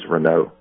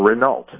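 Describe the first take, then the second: First: The name is said with a French pronunciation. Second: The name is said with an English-style pronunciation. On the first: This is how it is said in French. "if you're speaking French, that's the way you say it" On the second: This is how some people say it. "as it's some people call it"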